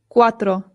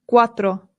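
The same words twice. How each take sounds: The two takes are said the same way.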